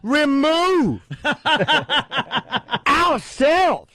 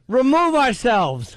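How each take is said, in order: First: Emphasis falls oddly in the middle of words. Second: Emphasis falls in the usual places in words. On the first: The speaker is expressing anger. The speaker calls it wrong. "In the middle of words" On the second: The words alone carry the meaning. The speaker calls it right. "why don't we just remove ourselves?"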